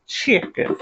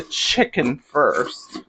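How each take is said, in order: First: "Chicken" in a playful put-on accent. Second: Said in the usual way. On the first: Shown as a demonstration. Cook to viewers, saying "Chicken" her special accented way. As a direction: give "Chicken" a fun accented twist. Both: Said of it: "I always like to say it a certain way with accent".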